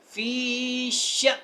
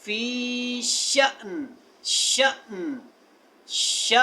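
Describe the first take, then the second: First: फ़ी श with a sharp stop on श; pausal form. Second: फ़ी श with a sharp clipped stop; jolt on श. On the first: Teacher shows the pause form ending on श with a jolt. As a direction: cut श off short with a jolt. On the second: Teacher repeats श to drill the clipped stop. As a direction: stop dead on श. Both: Shown as a demonstration. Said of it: "यहाँ पे झटका दें".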